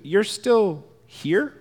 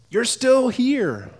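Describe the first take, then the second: First: The voice rises at the end, like a question. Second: The voice falls at the end, like a statement. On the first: It is surprising that people are still here. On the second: It is good news that people came.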